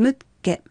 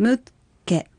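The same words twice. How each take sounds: First: The word is said smoothly at normal speed. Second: The word is said slowly, sound by sound. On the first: "続けて発音しましょう" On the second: "ゆっくり発音してみましょう"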